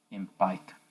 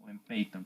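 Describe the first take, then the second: First: "Python" said the English way, like "PAI-thon"; English-style Python. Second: "Python" said with a Spanish-leaning first vowel, "PEI-ton"; alternative Python pronunciation. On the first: Teacher to class, offering the English pronunciation of Python. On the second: Teacher to class, offering the second way to say Python. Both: Shown as a demonstration. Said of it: "como ustedes quieran llamarle".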